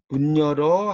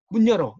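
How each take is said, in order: First: The pitch rises at the end. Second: The pitch falls at the end. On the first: It asks whether the door is being opened. "끝을 올려버리면 문 여는 거냐는 뜻이고" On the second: It is an order to open the door. "끝을 내리면 명령이 된다"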